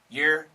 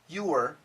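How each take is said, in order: First: It is said very quickly. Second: It is said slowly and carefully. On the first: "And really fast" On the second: "So perfect pronunciation"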